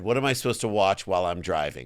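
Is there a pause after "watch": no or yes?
no. It runs on with no pause after watch.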